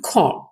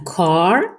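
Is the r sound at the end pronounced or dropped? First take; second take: dropped; pronounced. First: The final r sound is dropped. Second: The final r sound is clearly pronounced.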